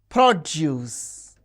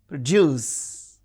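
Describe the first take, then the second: First: The stress is on the first syllable. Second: The stress is on the second syllable. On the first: It is used as a noun. "the stress is on the first syllable when the word is used as noun or adjective" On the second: It is used as a verb. "the stress is on the second syllable when the word functions as a verb"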